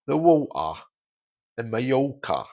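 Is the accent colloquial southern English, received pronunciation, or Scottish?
Colloquial southern. Casual southern English with shifted vowels, silent R. "Colloquially, in the south of England, the vowels are a little bit different, but the R's are still silent"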